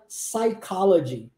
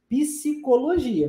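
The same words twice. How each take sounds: First: "psychology" starting on an S sound, sai-COL-o-gy; English silent P. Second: "Psicologia" slowly, with the P sounded as pi-si; Portuguese pronounced P. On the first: Teacher contrasting English with Portuguese, silent P in "psychology". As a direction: drop the P entirely in "psychology". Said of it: "mas o P é mudo". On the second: Teacher showing Portuguese students their spoken P, pronounced P. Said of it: "a gente pronuncia o P". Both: Shown as a demonstration.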